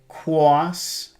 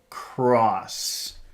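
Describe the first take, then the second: First: The word sounds soft and childlike, without air push. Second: The word is pushed out with a strong airflow. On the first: "That's how a child says it" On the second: "Now push out"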